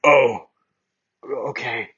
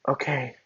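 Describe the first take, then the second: First: Bakugo's voice. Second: Wrong voice. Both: Acted. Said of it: "that's Bakugo's voice".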